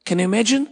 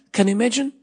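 The two takes are said the same way.

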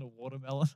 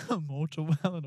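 First: "watermelon" said properly, wa-ter-me-lon; plain correct "watermelon" after the slip; correct pronunciation. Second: "mortawellen" said as mor-ta-wel-len, garbled watermelon; mispronounced watermelon. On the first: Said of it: "A mortawellen". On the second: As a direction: say "mortawellen" with m and t swapped in. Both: Shown as a demonstration.

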